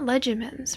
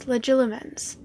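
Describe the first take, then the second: First: The middle 'li' syllable is left out. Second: The middle 'li' syllable is pronounced. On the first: The speaker calls it wrong. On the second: The speaker calls it right.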